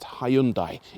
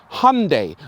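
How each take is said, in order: First: The name does not rhyme with Sunday. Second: The name rhymes with Sunday. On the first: This is the older British way of saying it. "the company that make it have been pronounced Hyundai in the U K" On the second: This is the American way of saying it. "like Sunday"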